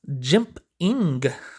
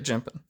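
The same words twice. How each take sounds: First: The word ends with a clear final G sound. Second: The word ends without a final G sound. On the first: "I should be adding a G to that word" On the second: "It's always been jimping to me"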